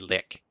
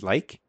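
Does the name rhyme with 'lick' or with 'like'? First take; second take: lick; like. First: The vowel is short, as in 'lick'. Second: The vowel is long, as in 'like'. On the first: The speaker calls it wrong. "I pronounce it as lick. In my head, it's lick" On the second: The speaker calls it right. "the first part of lichen. So he pronounces like"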